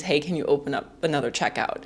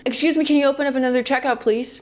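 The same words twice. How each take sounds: First: Said in the usual way. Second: Quick, higher, overly polite request; hammed-up courteous shopper calling out fast; mock polite call. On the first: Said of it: "Which basically just means". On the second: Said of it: "yell from the back of the line".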